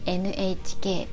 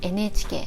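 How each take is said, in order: First: Each letter is said fully and separately. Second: The letters are run together and shortened. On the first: "It is N H K" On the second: "but we say N H K, like it's shortened"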